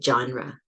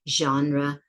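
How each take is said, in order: First: It begins with a stopped j sound. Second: It begins with a smooth, continuous zh sound. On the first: "there's a stop there" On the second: "no words start with that sound except a few"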